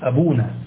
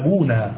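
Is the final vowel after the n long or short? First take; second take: long; long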